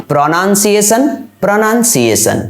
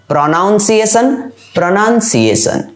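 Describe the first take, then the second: Both takes have the same delivery.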